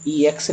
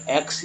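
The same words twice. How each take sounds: First: "ई एक्स" as two letter names, ee then eks; letters named separately. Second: "एक्स" as one syllable, with no separate ee; one blended syllable. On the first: Teacher showing how not to read EX, spelled-out pronunciation. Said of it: "ई एक्स नहीं बोलेंगे बल्कि". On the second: Teacher showing how to read EX at word start, blended pronunciation. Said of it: "बल्कि एक्स ही बोलेंगे". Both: Shown as a demonstration.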